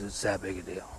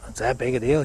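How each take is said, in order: First: "It's that big a deal" lower and softer, as a statement; firm confirmation. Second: "It's that big a deal" as a question. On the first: Golfer answers the pupil about the secret, quietly firm. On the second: Pupil checks with the golfer about the secret, questioning. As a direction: ask "that big a deal" in mild disbelief. Asks, then stranger confirms it. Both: Retold or imitated.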